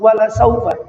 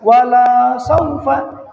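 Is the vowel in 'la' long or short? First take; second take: short; long. First: The vowel in 'la' is short. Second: The vowel in 'la' is long. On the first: It will surely be given. The speaker calls it right. "La yang pendek itu" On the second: It will not be given. The speaker calls it wrong. "ketika dibacanya panjang"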